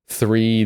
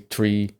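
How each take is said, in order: First: It starts with a th sound. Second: It starts with a t sound. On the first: The speaker calls it right. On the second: The speaker calls it wrong.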